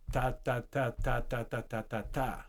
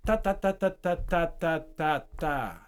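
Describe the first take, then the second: First: Exponential rhythm, softer. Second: Exponential rhythm. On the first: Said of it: "Same thing". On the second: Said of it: "rhythm that speeds up or so, slow down". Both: Shown as a demonstration.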